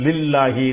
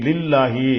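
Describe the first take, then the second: The two takes are said the same way.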